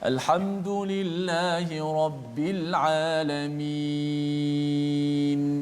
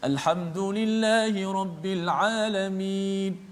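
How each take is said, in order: First: It is recited at a moderate pace, longer vowel. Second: It is recited faster, with a shorter vowel. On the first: "empat harakat sebab kita baca dengan biasa" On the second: "dengan hadar, dengan cepat sedikit"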